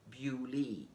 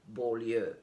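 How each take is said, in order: First: The name is pronounced the English way. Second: The name is pronounced the French way. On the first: The speaker calls it right. "the right pronunciation for it is Beaulieu" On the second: The speaker calls it wrong. "I thought it was a French city... I went with Beaulieu"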